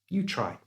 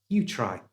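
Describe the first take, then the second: The two takes are said the same way.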